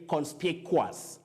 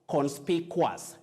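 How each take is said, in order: First: The ending sounds like quas. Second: The ending sounds like quas.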